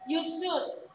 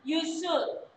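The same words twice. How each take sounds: The two takes are said the same way.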